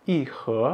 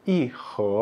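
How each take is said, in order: Both takes have the same delivery.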